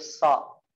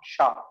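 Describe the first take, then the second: First: The consonant is a sharp hissing 's' sound. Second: The consonant is a hushing 'sh' sound. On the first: The speaker calls it right. "Tapi so" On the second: The speaker calls it wrong. "Biar nggak jadi sya. Sya. Bukan sya"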